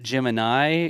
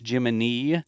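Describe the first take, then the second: First: The final syllable does not rhyme with knee. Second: The final syllable rhymes with knee. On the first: The speaker calls it wrong. "it's not Gemini" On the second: The speaker calls it right. "it's Jiminy. ... Jiminy, like uh, knee"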